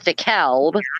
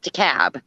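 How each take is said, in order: First: The L sound is pronounced in the name. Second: The L sound is left out of the name. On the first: This is how it is said in Illinois. "he pronounced it as DeKalb, because there's an L in there" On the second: This is how it is said in Georgia. "it's spelled the same way in Georgia, but they pronounce it DeKalb"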